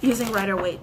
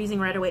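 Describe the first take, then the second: First: The phrase is spoken slowly and clearly. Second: The phrase is spoken very quickly. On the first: The speaker calls it right. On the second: The speaker calls it wrong.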